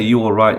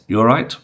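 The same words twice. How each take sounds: First: Every word is pronounced fully and clearly. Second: The words are reduced and run together. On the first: "you wouldn't say you all right" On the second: "weak forms where the language isn't quite as well pronounced"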